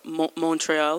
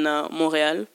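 First: Montreal is pronounced the American English way. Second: Montreal is pronounced the French way.

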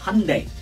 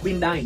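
First: It is pronounced the English way. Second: It is pronounced the Vietnamese way. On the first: The speaker calls it right. "trong tiếng Anh đọc khá là khác đó, nó đọc là Hyundai" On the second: The speaker calls it wrong. "người Việt đọc là Hyundai"

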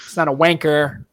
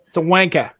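First: It is said without a Boston-like accent. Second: It is said with a Boston-like accent.

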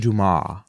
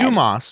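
First: The name is said the French way. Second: The name is said the American way. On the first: "some people say Dumas, but I'm not French" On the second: "I'm saying it right"

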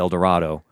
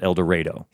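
First: It is said with the standard pronunciation. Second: It is said with the local street pronunciation. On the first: The speaker calls it right. "what should be El Dorado" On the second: The speaker calls it wrong. "but they called it El Dorado"

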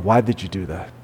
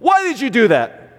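First: It sounds gentle and curious, like a real question. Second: It sounds harsh and accusing, like a scolding. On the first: The speaker genuinely wants to hear the reason. The speaker calls it right. "I want to hear your heart" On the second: The child is being scolded, not asked. The speaker calls it wrong. "I'm not asking a question. ... I'm saying you're dumb, you're an idiot"

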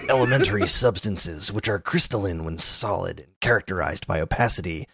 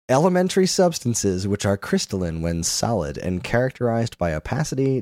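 First: It is read in a put-on gruff character voice. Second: It is read in the speaker's ordinary voice.

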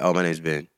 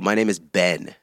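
First: The words are run together loosely and unclearly. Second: Every word is pronounced very carefully and distinctly. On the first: "if you say it like" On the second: "If you enunciate hella much, it sounds dumb"

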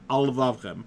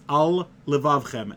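First: The two words are run together. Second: The two words are kept clearly apart. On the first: The speaker calls it wrong. "and not" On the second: The speaker calls it right. "you have to make sure to separate the words"

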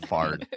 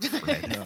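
First: The word is said like 'Fard'. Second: The word is said like 'Fred'. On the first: The speaker calls it right. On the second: The speaker calls it wrong. "Not Fred"

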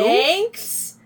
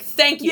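First: It sounds puzzled, like a question. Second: It sounds sincere, like a plain statement.

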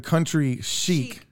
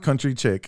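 First: The second word sounds like 'sheek'. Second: The second word sounds like 'chick'. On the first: The speaker calls it right. "It's the Country Chic" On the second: The speaker calls it wrong. "not Country Chick"

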